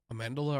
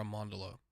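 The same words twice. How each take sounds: First: Amandala with "man" as in "hand"; flat-A pronunciation. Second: Amandala with "man" sounded "mahn"; open-A pronunciation. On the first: Host asking which pronunciation is right, Amandala with flat "man". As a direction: say Amandala with a short flat A in the second syllable. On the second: Host offering the alternative pronunciation, Amandala with "mahn". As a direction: say Amandala with an open "ah" in the second syllable. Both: Shown as a demonstration. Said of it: "Is it Am-, Amandala or Amandala?".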